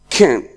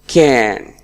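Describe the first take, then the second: First: The vowel is reduced and weak. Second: The vowel is full and strong. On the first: "In the weak form, it is pronounced like can" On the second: "And in the strong form, it is pronounced like can"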